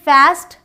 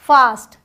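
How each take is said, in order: First: It has an American flat a vowel. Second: It has a British broad ah vowel.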